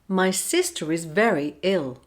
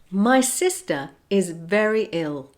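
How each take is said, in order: First: An R sound joins the words smoothly together. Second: The words are kept apart with no R link. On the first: "then I'll say it with the linking" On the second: "I'll say a phrase without linking"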